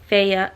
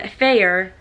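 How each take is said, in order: First: The name ends with a plain vowel. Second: The name ends with an r-colored vowel. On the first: The speaker calls it right. "It's Faya" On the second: The speaker calls it wrong. "I'm adding more er"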